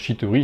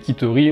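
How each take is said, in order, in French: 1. Le mot commence par un sh doux. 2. Le mot commence par un k dur. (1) "on peut aussi dire Chittery" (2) "j'ai prononcé Kittery"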